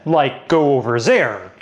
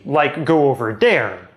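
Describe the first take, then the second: First: 'There' begins with a z sound. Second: 'There' begins with a d sound. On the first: The speaker's native language is European French. "European French speakers will fix it by using Z" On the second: The speaker's native language is Quebec French. "Quebec French speakers, on the other hand, will get around it by using D"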